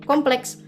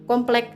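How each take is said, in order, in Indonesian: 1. Kata ini berakhir dengan bunyi ks. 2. Kata ini berakhir dengan bunyi k biasa. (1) "kata-kata terpelajar" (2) "Kata-kata tidak terpelajar"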